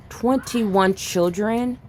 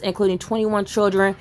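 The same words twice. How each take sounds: First: TWENTY-ONE drawn out slowly, as a stunned question; stunned disbelief. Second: Said in the usual way. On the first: Real, not acted. Stunned repeat of the reported figure.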